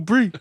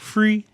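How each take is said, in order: First: The word begins with a b sound. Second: The word begins with an f sound. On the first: "What about brie?" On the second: "pronounce the word three as in free"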